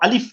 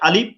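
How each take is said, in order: First: It starts with an f sound, lip on teeth. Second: It starts with a p sound, lips closed. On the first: The speaker calls it right. "ঠিক আলিফটাকেও আলিফ বলতে হবে" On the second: The speaker calls it wrong. "আলিফ বলা যাবে না"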